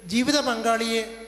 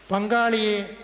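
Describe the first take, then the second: First: Slow, with ജീവിത drawn out and weighted; stress on ജീവിത. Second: Said in the usual way. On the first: Real, not acted. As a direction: lean hard on ജീവിത, unhurried. (ജീവിത എന്ന വാക്കിൽ ഊന്നി പതുക്കെ)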